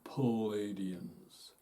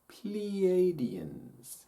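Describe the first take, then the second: First: The first syllable sounds like 'pal'. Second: The first syllable sounds like 'play'. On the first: The speaker calls it wrong. "Not Palladians" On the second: The speaker calls it right. "No. Pleiadians"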